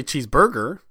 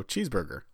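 First: "cheeseburger" with the weight on burger; stress shifted. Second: Said in the usual way. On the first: Shown as a demonstration. Showing the friend how nobody says it, stress shifted in "cheeseburger". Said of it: "you don't say cheeseburger". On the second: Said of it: "you don't say cheeseburger, so cheeseburger".

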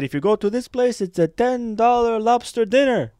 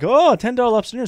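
First: A higher, slowed salesman pitch from the airline rep; tour rep pitch. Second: Higher, louder, fast and thrilled; excited echo. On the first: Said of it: "And he said". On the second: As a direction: repeat it fast like you can't believe the bargain. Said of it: "And I'm like". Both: Retold or imitated.

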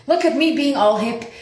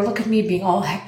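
First: Higher, playful self-praise; mock proud. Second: Said in the usual way. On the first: Shown as a demonstration. Archer brags to herself in the rain, higher mock pride. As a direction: show off how hip you feel, pitched up.

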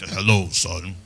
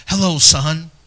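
First: "Hello, son." lower and softer in dad's voice; lower, softer imitation of a stern dad; father's intimidating voice. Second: Friendly greeting. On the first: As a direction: imitate a commanding father greeting his son. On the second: Retold or imitated. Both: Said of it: "His voice was like".

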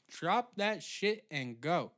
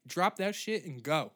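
First: Each word spaced out and punched; slow, emphatic order. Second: Punchy, raised order at normal speed; emphatic order. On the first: Comic ranting at delivery drivers, slow emphatic order. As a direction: draw it out, higher, hitting DROP. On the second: Comic ranting at delivery drivers, emphatic order. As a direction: say it briskly, leaning on DROP. Repeats order, second take slower. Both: Pretend.

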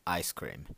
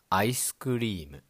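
First: Ice cream said the English way, two syllables, no added vowels; plain English ice cream; English pronunciation. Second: Whispered ice cream as "aisu kurimu" with added vowels; katakana pronunciation. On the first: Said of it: "In English". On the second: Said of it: "In katakana Japanese". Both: Shown as a demonstration.

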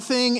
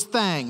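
First: Said in the usual way. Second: "thang" with an open twangy A in place of the short I; Southern "thang". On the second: Shown as a demonstration. Preacher showing how a Southern lady said it, "thang" with a twanged A. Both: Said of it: "It wasn't thing, it was thang".

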